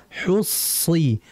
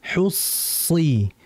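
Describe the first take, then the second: No difference in how they are said.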